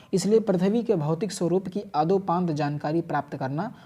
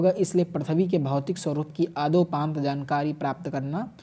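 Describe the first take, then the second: The two takes are said the same way.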